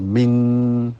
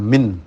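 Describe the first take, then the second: First: The n is hidden in a nasal sound. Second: The n is pronounced fully and clearly. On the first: The sound changed because it meets the next letter. "Demikian ikhfa, ... terus ketemu kum jadi min" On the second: This is the original form. "asalnya min"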